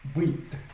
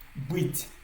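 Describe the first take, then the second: First: The final t is hard, not softened. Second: The final t is softened, palatalized. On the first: "Sans le signe mot, on allait lire" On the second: "avec le signe mot, ça vient rendre ça un peu plus euh, mou"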